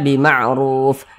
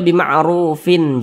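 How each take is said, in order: First: The word ends stopped on a silent f. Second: The word ends with an added vowel and n. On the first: The speaker calls it right. "Ini kita baca bima'ruf" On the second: The speaker calls it wrong. "Jangan dibaca bima'rufin, jangan"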